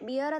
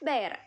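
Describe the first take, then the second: First: The vowel rhymes with ear. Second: The vowel rhymes with air. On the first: The speaker calls it wrong. "ബിയർ എന്ന് വായിക്കരുത്" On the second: The speaker calls it right. "ഉച്ചാരണം correct എന്താണ്"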